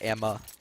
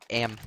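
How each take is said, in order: First: The first syllable is a longer, reduced 'amma'. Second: The first syllable is a short, clipped Midwest 'am'.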